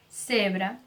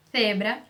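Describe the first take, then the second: First: "cebra" with a plain hissed s; unlisped s in "cebra". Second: "cebra" starting on English th; tongue between the teeth for the C of "cebra"; Spain-style "thebra" for "cebra"; lisped C. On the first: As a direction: start "cebra" like "sebra", tongue behind teeth. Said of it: "não, cebra". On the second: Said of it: "sabe o T H do inglês". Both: Shown as a demonstration.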